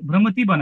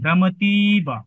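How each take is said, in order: First: The i vowel is said short. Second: The i vowel is said long. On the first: The speaker calls it wrong. "মানে ভ্রমতীবা না" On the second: The speaker calls it right. "এটা তো দীর্ঘইকারী"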